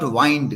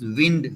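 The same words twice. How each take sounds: First: The vowel is long, rhyming with 'kind'. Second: The vowel is short, rhyming with 'pinned'. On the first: The speaker calls it wrong. "not wind" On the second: The speaker calls it right. "it is wind uh, word, uh, blowing in the wind"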